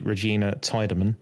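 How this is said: The name is said with an American accent.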